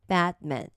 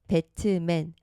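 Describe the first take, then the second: First: The t is held back without being released. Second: The t is fully released with a vowel after it. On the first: The speaker calls it right. "트 소리 안 내고 요거를 받침 느낌으로" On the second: The speaker calls it wrong. "우리는 요거를 소리를 낼 때 배트맨 이 소리에만 익숙하거든요"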